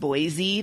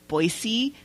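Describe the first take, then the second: First: The middle consonant is a Z sound. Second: The middle consonant is an S sound. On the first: The speaker calls it wrong. "and not Boise" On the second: The speaker calls it right. "it is Boise ... There is no Z"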